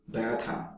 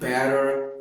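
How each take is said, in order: First: It is said in an Australian accent. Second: It is said in an American accent. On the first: "in Australian" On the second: "in American"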